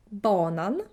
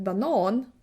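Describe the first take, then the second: First: BA-nan, the tune rising at the end; stress on first syllable. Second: Ba-NAN, with a long final vowel; stress on second syllable. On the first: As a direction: banan stressed on BA. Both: Shown as a demonstration. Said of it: "where you put the stress".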